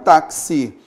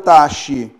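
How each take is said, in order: First: The x is said as two sounds, k-s. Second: The x is said as a single sound. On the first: The speaker calls it right. "eu vou pegar um táxi" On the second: The speaker calls it wrong. "eu não vou pegar um taxi"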